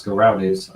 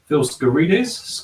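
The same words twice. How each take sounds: First: "Skaroudis" with an ow in the middle; "Skaroudis" as an alternative guess at the name; second pronunciation attempt. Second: "Skaridis" slowly, with a questioning rise; "Skaridis" as a slow, higher first guess; tentative pronunciation. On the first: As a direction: try "Skaroudis" at an ordinary pitch, without the questioning rise. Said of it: "that was my best go". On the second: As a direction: sound out "Skaridis" with an ee in the middle, unsure. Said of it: "don't know quite how to pronounce". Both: Real, not acted.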